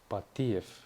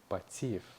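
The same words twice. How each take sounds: First: The surname is said with Kurdish sounds. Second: The surname is said with Russian sounds. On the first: The speaker calls it right. "вы должны использовать именно курдские звуки" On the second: The speaker calls it wrong. "Патиев это будет по-русски"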